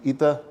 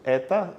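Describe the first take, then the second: First: The first vowel is an I sound. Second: The first vowel is an E sound. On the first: "vou falar vita, e ita" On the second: "e isso eta"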